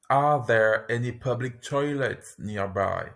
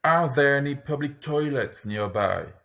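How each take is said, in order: First: Slow and careful; careful teaching pace; slower. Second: Said in the usual way. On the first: Shown as a demonstration. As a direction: model it slowly for repetition. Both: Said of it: "lesson repeats phrase twice".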